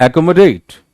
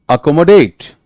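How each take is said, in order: No difference in how they are said.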